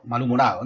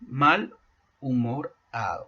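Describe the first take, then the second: First: Said in the usual way. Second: Mal and humorado said apart, with a pause between; "mal" then "humorado" as two separate words; split into its parts. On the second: Shown as a demonstration. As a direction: break mal from humorado to show the pieces. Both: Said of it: "Otro ejemplo".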